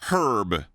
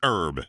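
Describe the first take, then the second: First: The word begins with a sounded h. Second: The word begins with a silent h. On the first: The speaker calls it wrong. "there's an H in the word herb" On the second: The speaker calls it right. "It's herb. It's French. Drop the H"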